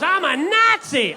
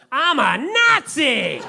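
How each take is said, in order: First: Put-on even higher, slow gleeful kid shout; little boy hollering it a second time; kid yelling it again. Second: Put-on high, slow gleeful kid shout; proud little boy hollering it down the stairs; kid yelling proudly. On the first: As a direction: belt it out louder, proud and oblivious. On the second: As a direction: belt it out like an excited little boy.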